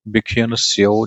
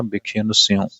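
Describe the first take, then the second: First: ਸਿਉ ending in a pure oral vowel; no nasal ending. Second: ਸਿਉ ending in a nasal vowel. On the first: Teacher showing the mistake, ਸਿਉ without a nasal vowel. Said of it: "ਬਿਖਿਅਨ ਸਿਉ ਨਹੀਂ ਕਹਿਣਾ". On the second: Teacher giving the correction, ਸਿਉ with nasalised vowel. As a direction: say ਸਿਉ as sion, vowel through the nose. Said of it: "ਨਹੀਂ ਕਹਿਣਾ". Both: Shown as a demonstration.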